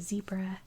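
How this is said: It is said with an American pronunciation. "in my accent we say zebra"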